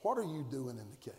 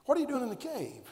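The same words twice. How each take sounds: First: Low, soft, probing question; hushed question. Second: Quicker, fuller pressing repeat; pressing question. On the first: Preacher softly asking the congregation the big question. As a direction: ask it quietly, letting it sink in. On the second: Preacher pressing the question on the congregation. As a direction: ask it again faster and firmer. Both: Shown as a demonstration. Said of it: "there's a question that's monumental".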